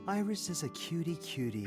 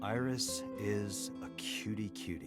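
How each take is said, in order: First: It is said warmly, with real feeling. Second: It is said flatly, without enthusiasm.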